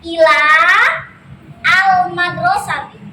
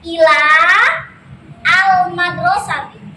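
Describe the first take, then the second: First: The words are separated, with a long l. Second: The words are separated, with a long l.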